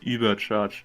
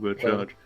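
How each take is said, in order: First: The first vowel is a rounded German ü. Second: The first vowel is a plain English oo. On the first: The speaker calls it right. "the correct pronunciation would be Übercharge" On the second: The speaker calls it wrong. "not Ubercharge"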